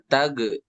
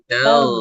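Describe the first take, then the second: First: The consonant is a hard, bouncing g stop. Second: The consonant is a weak, flowing g-like friction. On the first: The speaker calls it wrong. "jangan memantul. Bukan tage" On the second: The speaker calls it right. "seperti G tapi lemah. Suaranya mengalir"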